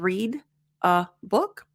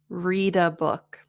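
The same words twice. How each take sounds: First: The words read and a are separated. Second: The d of read links into a. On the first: The speaker calls it wrong. "instead of" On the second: The speaker calls it right. "Read, the the ends in a consonant sound. A is a vowel sound"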